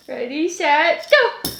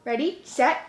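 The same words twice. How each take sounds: First: Slow "Ready, set" stretched out, then "go" jumps up high; drawn-out countdown. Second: Said in the usual way. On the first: Real, not acted. Mom counting down a ball game for her toddler, slow and playful.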